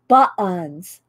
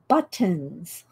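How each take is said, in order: First: The word is said casually, without exaggerated articulation. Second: The word is said with exaggerated, careful articulation. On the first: "I can't stand it when people say buttons" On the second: "I overemphasize buttons"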